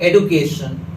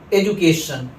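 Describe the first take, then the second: First: The middle consonant is a 'd' sound. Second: The middle consonant is a 'j' sound. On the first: This is how Americans say it. "जबकि American इसे कहते हैं एडुकेशन" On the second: This is how speakers here say it. "इसे हम लोग क्या पढ़ते हैं, एजुकेशन"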